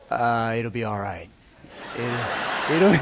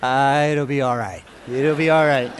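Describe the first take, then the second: First: Low, mumbled brush-off; lightly voiced sleepy husband dodging the chore; lazy excuse. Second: A hint of a mumbled brush-off; lightly retold sleepy dodge; lazy excuse. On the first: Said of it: "what guys say when we don't want". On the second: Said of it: "What we say when we don't want".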